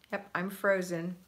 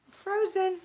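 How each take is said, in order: First: Said in the usual way. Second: Frozen cried out higher and louder; exasperated frozen. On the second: Real, not acted. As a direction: squeal I'm frozen in mock dismay.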